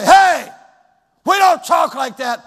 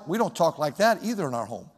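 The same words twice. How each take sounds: First: Put-on loud, high parental yell at a child; mock angry parent yell. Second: Said in the usual way. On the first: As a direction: bark the scolding like an angry dad. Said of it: "raise your voice and put fear". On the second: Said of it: "by the way".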